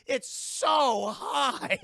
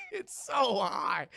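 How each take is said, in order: First: Drawn-out shout, voice jumping high; slow, high, outraged yell; exasperated shout. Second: High, laughing yell of disbelief; slow shout breaking into laughter. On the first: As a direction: yell it out in disbelief. Outraged at the casualty count. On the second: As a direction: laugh through the outraged repeat. Repeating it while laughing. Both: Real, not acted.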